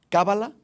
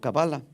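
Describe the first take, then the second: First: The stress is on the first syllable. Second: The stress is on the second syllable.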